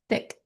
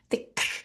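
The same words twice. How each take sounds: First: The final k is a soft, light click. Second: The final k is hit hard and forcefully. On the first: The speaker calls it right. "I'm going to click in the back" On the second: The speaker calls it wrong. "No, don't do that"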